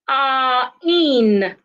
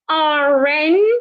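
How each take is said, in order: First: The two words are said separately without linking. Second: The r sound runs straight into the next word. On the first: The speaker calls it wrong. "instead of" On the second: The speaker calls it right. "so we can say R ends with R... So I would say R N"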